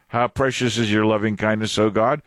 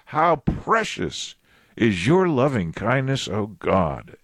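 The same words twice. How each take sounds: First: It is said as a wondering question. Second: It is said as a firm exclamation.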